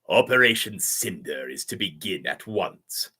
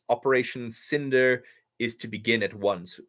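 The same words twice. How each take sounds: First: It is said in a put-on villain voice. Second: It is read in the speaker's natural voice.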